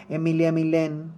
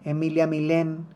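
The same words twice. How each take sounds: The two takes are said the same way.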